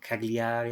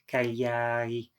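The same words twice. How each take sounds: First: It is pronounced with English letter sounds. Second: It is pronounced with Italian letter sounds. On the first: The speaker calls it wrong. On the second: The speaker calls it right.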